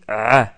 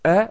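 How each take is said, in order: First: The vowel is swallowed, squeezed deep in the throat. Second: The vowel is plain, with breath going out. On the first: "vous avalez le son vers l'intérieur" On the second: "au lieu de dire ah"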